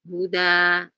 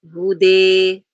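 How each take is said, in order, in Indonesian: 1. Vokal akhir itu 'a' terbuka biasa. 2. Vokal akhir itu condong ke bunyi 'e'. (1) "dibaca fathah normal" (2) "Ada yang baca dengan imalah"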